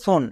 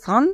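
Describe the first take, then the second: First: The vowel is a rounded 'o' sound. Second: The vowel is an open 'ah' sound. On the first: "কেউ করে সন" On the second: "কেউ করে সান"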